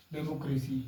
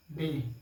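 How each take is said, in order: First: Said in the usual way. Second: democracy in four pieces with long pauses, डे, मो, क्रे, सी; separated syllables. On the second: Shown as a demonstration. (Democracy के हर हिस्से पर रुककर बोलें) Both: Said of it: "separate करके समझाने के लिए".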